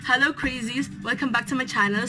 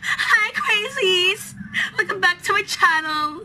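First: It is said in a deep, modulated voice. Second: It is said in her normal voice.

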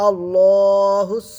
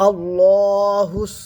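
Both takes have the same delivery.

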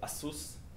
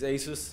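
First: The name is said the Taiwanese way. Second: The name is said the usual Western way.

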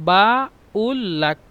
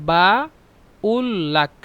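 No difference in how they are said.

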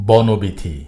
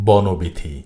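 No difference in how they are said.

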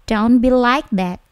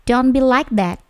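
No difference in how they are said.

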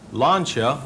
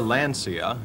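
First: The name is said the original, non-American way. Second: The name is said the common American way.

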